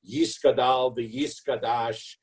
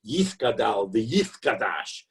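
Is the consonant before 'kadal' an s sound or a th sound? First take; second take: s; th. First: The consonant before 'kadal' is an s sound. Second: The consonant before 'kadal' is a th sound. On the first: The speaker calls it wrong. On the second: This is the Aramaic way of reciting it. The speaker calls it right. "rather than an S, it should be more of a T H"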